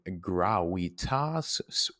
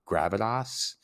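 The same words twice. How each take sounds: First: The word is given a Latin pronunciation. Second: The word is sounded out as spelled, English-style. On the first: "From the Latin gravitas" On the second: "if you wanted to just sound it out phonetically"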